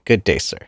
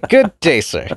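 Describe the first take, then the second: First: It is said flatly and weakly. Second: It is said with more lively energy.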